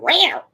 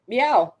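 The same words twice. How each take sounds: First: A high, rising little meow; imitated cat meow. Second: A playful answering meow, slightly higher; meowing back. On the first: Nurse's surprise meow from the hallway, high and rising. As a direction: mimic the odd cat sound heard through the door. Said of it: "like, a weird sound". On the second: Retold or imitated. Mom meowing back at the nurse, playful and mock-serious. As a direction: meow back at her deadpan, as a reply. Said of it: "nodded my head and went".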